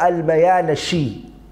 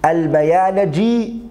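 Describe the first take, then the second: First: The name is said with an 'sh' sound. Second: The name is said with a 'j' sound. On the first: "you can say it with a sheen" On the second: "you can say it with a jeem"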